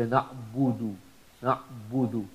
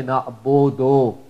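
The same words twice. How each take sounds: First: Soft na'budu with a clear oo; right pronunciation. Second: Na'budu with an o sound; wrong pronunciation. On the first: Teacher modelling correct oo, softly. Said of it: "you say". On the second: Teacher contrasting wrong o vowel with oo. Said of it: "So you don't say". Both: Shown as a demonstration.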